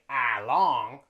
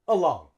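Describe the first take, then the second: First: The first vowel is a full vowel. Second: The first vowel is a reduced schwa. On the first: The speaker calls it wrong. "we don't say along" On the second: The speaker calls it right. "We say uh"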